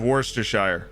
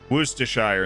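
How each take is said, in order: First: The first syllable sounds like 'worse'. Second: The first syllable sounds like 'woos'. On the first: "instead of worse"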